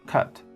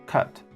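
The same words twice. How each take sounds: No difference in how they are said.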